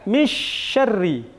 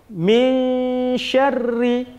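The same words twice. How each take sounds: First: The n sound is merged into the next consonant. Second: The n sound is hidden, halfway between clear and merged. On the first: The speaker calls it wrong. "Atau dengan idgham memasukkan, tidak" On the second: The speaker calls it right. "antara jelas dengan memasukkan"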